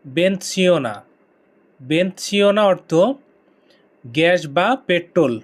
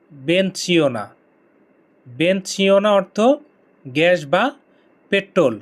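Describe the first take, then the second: No difference in how they are said.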